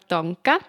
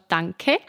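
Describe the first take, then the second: First: The middle consonant is a g sound. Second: The middle consonant is a k sound. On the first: This is the Walser German dialect form. "So sagen wir «Danke»" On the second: This is the standard German form. "anstatt «Danke»"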